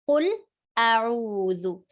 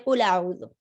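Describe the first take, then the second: First: The lam and the hamza are both pronounced distinctly. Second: The lam runs into the hamza with a vowel. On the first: The speaker calls it right. "We have to make lam clear and then hamza clear" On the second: The speaker calls it wrong. "Don't say"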